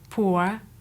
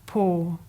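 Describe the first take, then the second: First: The vowel is a centering diphthong. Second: The vowel is a long 'or' monophthong. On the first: This is the older form. "which is an older form" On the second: This is the contemporary form. "use the long thought vowel or instead"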